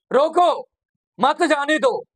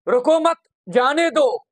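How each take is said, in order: First: "रोको" alone, pause, then "मत, जाने दो"; pause after रोको. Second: "रुको मत," with a full stop after मत, then "जाने दो"; "रुको मत" sharply ended, clear pause before "जाने दो". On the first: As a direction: break right after "रोको" so "मत" joins "जाने दो". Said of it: "इसी लाइन को अगर मैं ऐसे". ("रोको" के बाद ठहराव) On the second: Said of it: "मत पे मैंने फुल स्टॉप लगाया". ("रुको मत" के बाद ठहराव) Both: Shown as a demonstration.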